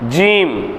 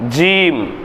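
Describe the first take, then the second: No difference in how they are said.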